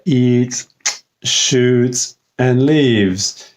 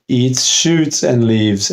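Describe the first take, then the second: First: Slow three-part list: "eats", "shoots", "and leaves"; list with commas. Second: "shoots and leaves" joined as things eaten; no commas. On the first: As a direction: separate pauses after "eats" and "shoots". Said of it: "comma, and leaves, that would mean". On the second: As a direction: run "eats shoots and leaves" together. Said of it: "if there's no comma at all". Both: Shown as a demonstration.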